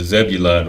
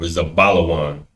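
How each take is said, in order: First: The name ends with a short 'lun' sound. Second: The name ends with a longer 'lawan' sound. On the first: The speaker calls it wrong. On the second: The speaker calls it right.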